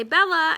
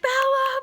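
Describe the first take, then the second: First: A light sing-song call of the cat's name; everyday cat call. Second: Bella yelled much higher and louder, panicked; frantic yell. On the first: Shown as a demonstration. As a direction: call Bella the usual easy way. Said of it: "normally I just say". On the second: Retold or imitated. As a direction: scream the cat's name into the dark. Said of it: "yelling out the back door".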